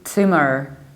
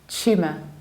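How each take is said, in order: First: It is said with an American accent. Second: It is said with a British accent. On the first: "in the American accent we say tumor" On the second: "In the British accent we say tumour"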